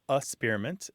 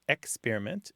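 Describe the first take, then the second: First: The first syllable has no K sound. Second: The first syllable has a K sound.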